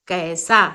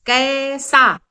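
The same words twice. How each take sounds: First: Said in the usual way. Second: कैसा said louder with an open ऐ; demo word. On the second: Shown as a demonstration. Teacher calling out कैसा clearly. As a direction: stress the ऐ in कैसा. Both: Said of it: "तो ये हो जाता है कै".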